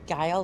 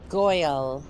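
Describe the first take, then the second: First: The vowel sounds like the one in 'mile'. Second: The vowel sounds like the one in 'boil'. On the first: "or is it pronounced like Guile?" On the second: "I'm not sure if I'm saying that right"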